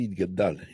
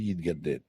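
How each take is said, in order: First: The last syllable has an 'a' vowel. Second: The last syllable has an 'e' vowel. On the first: It is the Aramaic form of the word. "Si c'était l'araméen, on dirait" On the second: It is the Hebrew form of the word. "mais de l'hébreu, on dit"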